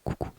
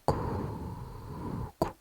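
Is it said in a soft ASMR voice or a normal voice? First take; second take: normal voice; ASMR voice. First: It is said in an ordinary speaking voice. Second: It is said softly, in an ASMR voice.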